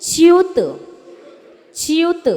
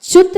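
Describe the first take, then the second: First: च्युत with a clear chi-ut glide, higher; correct chyut. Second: च्युत said as a clipped chut, higher; the wrong way: च्युत squeezed into one syllable; wrong chyut. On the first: Teacher to students, modelling correct च्युत. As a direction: open च्युत into chi-yut, two beats. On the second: Teacher to students, showing the wrong च्युत. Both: Shown as a demonstration. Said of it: "च्युत नहीं".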